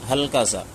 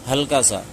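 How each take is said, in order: No difference in how they are said.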